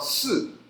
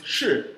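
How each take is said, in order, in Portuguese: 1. A palavra começa com o som de s simples. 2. A palavra começa com o som de sh. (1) "em outras regiões ele pode ser falado si" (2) "ele pode ser falado em algumas regiões shi"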